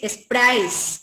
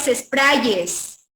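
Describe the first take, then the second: First: Sprays ending in one diphthong, -áis; correct plural sprays. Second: Sprayes drawn out, ending -ye-s; slow sprayes with an extra ye syllable; wrong plural sprayes. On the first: Teacher gives the exception, sprays with closing diphthong -áis. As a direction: say sprays as es-PRÁIS, no ye syllable. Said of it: "con diptongo". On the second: Teacher rejects a plural, slow sprayes with -yes ending. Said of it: "no es sprayes". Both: Shown as a demonstration.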